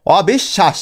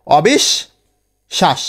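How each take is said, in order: First: Said in the usual way. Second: অবিশ্বাস drawn out very slowly, pausing after বিশ; slow teacher's breakdown of অবিশ্বাস; syllable by syllable. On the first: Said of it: "বিশ লিখে আমরা থেমে যাচ্ছি না". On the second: Shown as a demonstration. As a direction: stretch অবিশ্বাস out, stopping at each syllable. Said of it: "এই যে তাল বসায় এসে থেমে যাচ্ছি".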